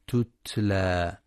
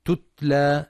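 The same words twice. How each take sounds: First: تتلى with firm, airy ت sounds, slowly; crisp breathy ت. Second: تتلى with the ت stripped of its stop and breath; the error: say تتلى with lax, plain ت; wrong soft ت. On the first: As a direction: stop then breathe out on each ت of تتلى. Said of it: "لهمس وشدة التاء". (همس وشدة التاء) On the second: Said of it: "فلا يقرأ تتلى بترك صفاتها". (تتلى بلا همس ولا شدة) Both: Shown as a demonstration.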